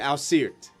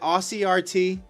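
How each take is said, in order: First: The name is run together as one word. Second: The name ends with the letters R and T spelled out. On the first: The speaker calls it wrong. "I've been calling you Asirt the whole time" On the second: The speaker calls it right. "so it's it's Aussie R T"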